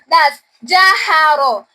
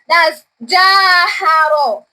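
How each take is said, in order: First: The first vowel is kept short. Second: The first vowel is held long. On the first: "jim fatia ja without elongation sign" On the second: "jim fatia, alif madi ja"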